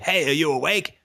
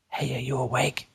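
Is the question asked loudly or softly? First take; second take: loudly; softly. First: The question is asked loudly and bluntly. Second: The question is asked quietly and softly. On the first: It would wake a sleeping person. The speaker calls it wrong. "unless you're a giant asshole, you don't say" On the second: It would not wake a sleeping person. The speaker calls it right. "As quietly and softly as you can"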